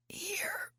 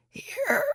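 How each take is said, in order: First: Weak, breathless whisper trying to call out; a voiceless croak of Here; failed yell. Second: Here pushed high and strained; a dry croak pushed out of a parched throat; hoarse squeaky Here from no water; raspy croak. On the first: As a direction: try to yell but only air comes. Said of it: "It was supposed to come out like a yell". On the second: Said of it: "like a frog who ate sandpaper". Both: Acted.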